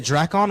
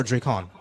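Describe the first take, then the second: First: "Dracon" said DRACK-on; first syllable of "Dracon" rhymes with back; short A in Dracon. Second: "Dracon" said DRAY-kon; first syllable of "Dracon" rhymes with day; long A in Dracon. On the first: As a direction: say "Dracon" with A as in cat. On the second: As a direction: say "Dracon" with A as in cake. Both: Shown as a demonstration. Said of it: "am I saying that right?".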